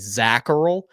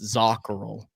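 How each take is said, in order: First: The surname has an Americanized pronunciation. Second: The surname has its original, non-Americanized pronunciation. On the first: This is how the younger generation of the family says it. "Americanized it to what the way that it's pronounced by all of like my generation" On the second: This is how the older generation said it. "to my grandparents' generation and how they pronounced it"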